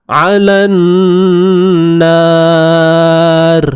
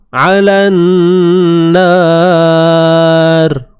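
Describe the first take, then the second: The two takes are said the same way.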